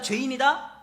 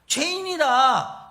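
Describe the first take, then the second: First: 죄인이다 rising like a question. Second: 죄인이다 slow, falling and final; firm verdict. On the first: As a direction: ask 죄인이다 with an upward lilt. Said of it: "의인이다, 죄인이다?". (죄인이다를 묻듯이 올려서) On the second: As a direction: pronounce 죄인이다 slowly like a sentence handed down. (죄인이다를 천천히 단정하듯 내려서) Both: Shown as a demonstration.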